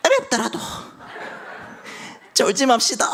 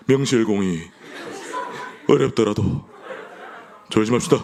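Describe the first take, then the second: First: 어렵더라도 squeaked much higher in a mock elder voice; elder impression. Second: Elder impression. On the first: Preacher has everyone copy Elder Baek, 어렵더라도 high and squeaky. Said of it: "백은철 장로님 따라하시는 겁니다". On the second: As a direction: say 어렵더라도 at normal pitch, chuckling like Elder Kim. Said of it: "김혜경 장로님 따라한 겁니다". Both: Shown as a demonstration.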